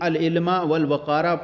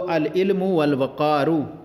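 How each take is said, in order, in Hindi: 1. दोनों संज्ञाएँ 'a' स्वर पर खत्म होती हैं। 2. दोनों संज्ञाएँ 'u' स्वर पर खत्म होती हैं।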